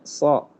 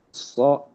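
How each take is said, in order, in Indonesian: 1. Bibir tidak dibulatkan pada konsonan. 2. Bibir dibulatkan pada konsonan. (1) "Harusnya so" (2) "ketika menjadi bibir salah"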